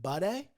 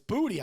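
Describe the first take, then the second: First: The name sounds like the word buddy. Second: The name sounds like the word booty. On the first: The speaker calls it wrong. "I would pronounce it Buddy" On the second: The speaker calls it right. "But it's Booty, I believe"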